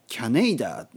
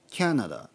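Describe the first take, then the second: First: It starts with kya, then a long nei. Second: It starts with kya, then na, da. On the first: "キャネイダは言わないですよね" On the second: "キャナダとかね"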